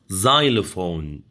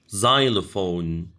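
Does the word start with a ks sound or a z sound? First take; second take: z; z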